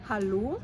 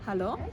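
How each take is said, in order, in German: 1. Das finale o ist ein langer, geschlossener Vokal. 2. Das finale o ist ein kurzer, offener Vokal. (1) "Nochmal die richtige Variante" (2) "und nicht"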